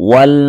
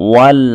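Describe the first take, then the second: The two takes are said the same way.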